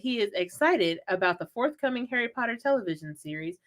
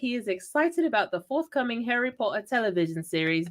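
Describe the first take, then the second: First: It is said in the speaker's ordinary accent. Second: It is said in a put-on British accent.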